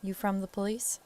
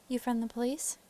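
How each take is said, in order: First: Said in the usual way. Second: Higher-pitched Southern lady; Southern farm wife, voice lifted; Southern accent. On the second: Acted. Wife questioning a visiting investigator, Southern accent. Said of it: "doing a Southern accent for a lady".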